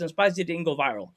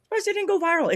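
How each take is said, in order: First: Said in the usual way. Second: Pitched way up in exaggerated disbelief; mock shock. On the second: Complaining to cohost about his clip, mock-shocked high voice. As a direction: squeak it like you can't believe it. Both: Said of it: "I'm shocked".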